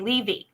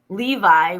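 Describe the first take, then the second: First: It is said in a Philadelphia accent. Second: It is said in a general American accent. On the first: "we say Levy" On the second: "We don't say Levi"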